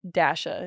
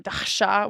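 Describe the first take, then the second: First: The name is said with an Americanized pronunciation. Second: The name is said with a traditional Russian pronunciation. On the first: This is the adapted form the speaker goes by. "Dasha is my Americanized name" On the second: This is the traditional form of the name. "traditionally, like, it's, like, Dasha or Dasha, which is, like, a Russian name"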